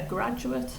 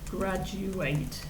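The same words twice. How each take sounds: First: It is said with the noun pronunciation. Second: It is said with the verb pronunciation. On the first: A person who has finished university. "So it's the same spelling, but different pronunciation" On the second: To finish university. "graduate is the verb"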